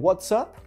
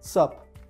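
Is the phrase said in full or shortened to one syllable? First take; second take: full; shortened. First: Both words are said in full. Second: It is squeezed into one short syllable.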